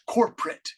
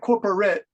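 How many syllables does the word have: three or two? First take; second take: two; three. First: The word is said with two syllables. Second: The word is said with three full syllables. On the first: "but it's corporate. Just core, and then pre" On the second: "It looks like corporate"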